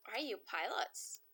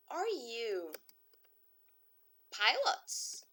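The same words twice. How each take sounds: First: Said in the usual way. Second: Are you, pause, then pilots rising and louder; chunked with a lifted pilots; split question demo. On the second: Shown as a demonstration. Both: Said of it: "teacher models question for repeating".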